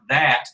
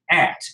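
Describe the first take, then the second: First: The word begins with a th sound. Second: The word begins without a th sound. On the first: "instead of saying like that, T H A T" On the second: "skip the T H"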